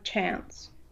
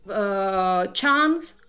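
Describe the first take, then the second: First: It has an American flat a vowel. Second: It has a British open a vowel. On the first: "он станет «chance»" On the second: "был у нас «chance»"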